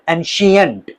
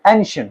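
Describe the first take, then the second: First: The middle has an extra 'ee-uh' syllable. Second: The middle is a single short schwa sound. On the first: The speaker calls it wrong. "No it's not एंशियंट" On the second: The speaker calls it right. "It's एंशंट, एंशंट अ sound"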